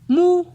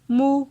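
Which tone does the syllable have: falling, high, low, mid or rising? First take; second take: high; mid. First: The syllable is said on a high tone. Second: The syllable is said on a mid tone. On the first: "ton haut" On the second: "ton moyen"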